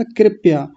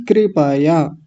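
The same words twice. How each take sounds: First: कृपया squashed into two syllables, KRIP-ya; wrong KRIP-YA. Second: कृपया in three full syllables, KRI-PA-YA; correct kri-pa-ya. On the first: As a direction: say कृपया with the P and Y run together. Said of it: "आपने पहला शब्द क्या बोला था?". (कृपया को 'कृप्या' बोलते हुए) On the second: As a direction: give कृपया a clear full PA before YA. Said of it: "कृपया नहीं". (कृपया का 'प' पूरा, कृ-प-या) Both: Shown as a demonstration.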